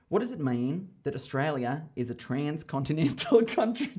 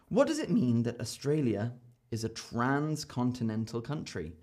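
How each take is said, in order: First: It is said in an Australian accent. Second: It is said in a non-Australian accent.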